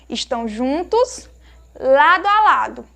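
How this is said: There is a pause after juntos.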